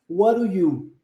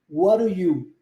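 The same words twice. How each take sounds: The two takes are said the same way.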